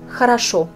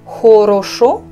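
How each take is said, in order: First: The unstressed vowels are reduced toward 'a'. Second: All the vowels are pronounced as full 'o'. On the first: The speaker calls it right. "je dis хорошо" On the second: The speaker calls it wrong. "Je ne dis pas хорошо"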